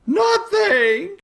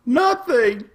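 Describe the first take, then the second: First: "Nothing." squeaked far higher, rising; squeaky echo. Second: "Nothing." firm falling high; emphatic nothing. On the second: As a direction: land "Nothing." with a falling tune. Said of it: "Nothing is bad". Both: Acted.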